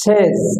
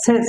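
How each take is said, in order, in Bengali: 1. শব্দটি 'z' ধ্বনি দিয়ে শেষ হয়। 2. শব্দটি 's' ধ্বনি দিয়ে শেষ হয়। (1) "দন্তেশ্বয়কার বর্গীয় জ" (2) "এটা ভুল হলো দন্তেশ্বয়কার দন্তেশ্ব"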